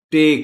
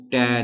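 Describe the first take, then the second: First: ٹے as a clear "tay", high and loud; correct second sound. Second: ٹے with an open vowel, "tae"; wrong middle syllable. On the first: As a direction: model ٹے with a closed E vowel. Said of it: "دوسری sound ہے". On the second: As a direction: show the mistaken ٹے as in "tat". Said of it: "ٹے نہیں بولنا". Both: Shown as a demonstration.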